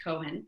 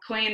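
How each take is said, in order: First: Said in the usual way. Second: Cohen said as "KOY-en"; grandmother's pronunciation. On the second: Shown as a demonstration. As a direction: give Cohen a y-glide, "KOY-en". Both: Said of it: "is how she pronounced Cohen".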